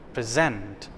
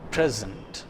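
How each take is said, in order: First: The stress is on the second syllable. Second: The stress is on the first syllable. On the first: It is used as a verb. "The second part of the word is pronounced with a force" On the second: It is used as a noun or adjective. "the first part is articulated louder"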